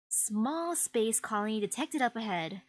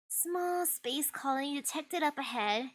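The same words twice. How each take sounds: First: It is said in a more manly voice. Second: It is said in a less manly voice.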